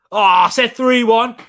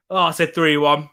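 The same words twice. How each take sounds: First: "three" hit louder and higher; stress on three. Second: "I" leaned on, otherwise level; stress on I. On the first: Checking his prediction, stressing "three" in surprise. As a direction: realise it and punch "three". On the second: Rechecking his own pick, stressing "I". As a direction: weigh the word "I" calmly. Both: Real, not acted.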